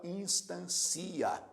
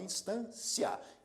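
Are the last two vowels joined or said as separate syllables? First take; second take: separate; joined. First: The final vowels are split into two syllables. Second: The final vowels are joined in one syllable. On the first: The speaker calls it wrong. "Você não fala instancia" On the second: The speaker calls it right. "você fala instância"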